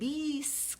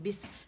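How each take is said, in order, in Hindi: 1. स्वर को खींचकर लंबा बोला गया है। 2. स्वर छोटा बोला गया है। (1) "इसे बीस करके आप नहीं पढ़ सकते, मद नहीं बना सकते" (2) "जस्ट वन बी आपने अदा करना है बिस"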